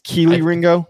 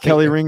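First: The first name has a long 'ee' vowel. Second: The first name has a short 'e' vowel. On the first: The speaker calls it right. "It's Keely Ringo" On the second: The speaker calls it wrong. "It's not Kelly Ring"

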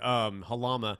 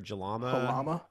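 First: The name begins with an H sound. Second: The name begins with a J sound. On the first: The speaker calls it right. "that was ignorant on my part" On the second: The speaker calls it wrong. "That's why I was pronouncing the J"

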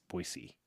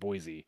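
First: The middle consonant is an s sound. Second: The middle consonant is a z sound. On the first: The speaker calls it right. "it's Boise, with an S" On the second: The speaker calls it wrong. "if you said Boise, they would always correct me"

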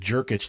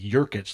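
First: The name begins with a J sound. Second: The name begins with a Y sound. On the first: The speaker calls it right. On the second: The speaker calls it wrong.

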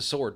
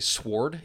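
First: No W sound is pronounced after the S. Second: A W sound is pronounced after the S. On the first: The speaker calls it right. "It's just a sword, dude" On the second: The speaker calls it wrong. "They say sword"

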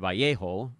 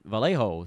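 First: The name is said the original way. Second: The name is said the Northern California way. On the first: "the actual way" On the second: "the Northern California way"

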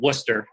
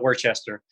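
First: The name is said short, the local way. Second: The name is said fully, as it is spelled. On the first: The speaker calls it right. "Hopefully I say this right" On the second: The speaker calls it wrong. "Not Worcester"

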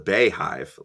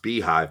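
First: The first syllable sounds like 'bay'. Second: The first syllable sounds like 'bee'. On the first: The speaker calls it wrong. "I've always pronounced this the Bayhive, like for [name]" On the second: The speaker calls it right. "pronounced beehive"

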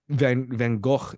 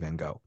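First: The name is said the original Dutch way. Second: The name is said the common English way. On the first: "the actual proper pronunciation of his name" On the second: "even though we all just say Van Gogh"

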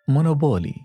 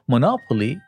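First: The name is said in an Arabic-style way. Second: The name is said in an English-style way. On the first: "نطقي للكلمة" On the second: "التسمية الصحيحة هي مونوبولي"

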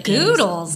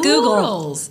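First: The name is said to rhyme with noodles. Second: The name is said not rhyming with noodles. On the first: The speaker calls it right. "Goodles, like noodles, but good" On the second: The speaker calls it wrong. "not Goodles"

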